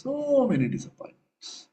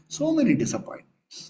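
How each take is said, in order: First: "So" stretched long and high, then falling; long, high, sweeping "Sooo". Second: "So" pitched high, then falling away; high-pitched opening on "So"; stress on SO. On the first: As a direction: draw out "So" to show how many. Same phrase repeated, more drawn out. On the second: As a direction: hit "So" high and let the phrase drop. Repeats phrase for emphasis. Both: Real, not acted.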